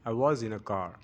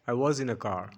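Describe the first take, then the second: Both takes have the same delivery.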